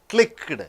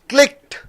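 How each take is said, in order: First: The ending is said as a separate syllable. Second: The ending is a plain t sound, no syllable. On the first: The speaker calls it wrong. "in written English" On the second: The speaker calls it right. "But in spoken English, ... One single syllable"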